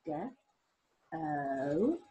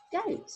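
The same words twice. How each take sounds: First: GOAT split slowly into g, oa, t; low, stretched GOAT, each sound apart. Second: Said in the usual way. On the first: Shown as a demonstration. Teacher showing the sounds in goat, GOAT sounded out. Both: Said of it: "what sound has goat got in it".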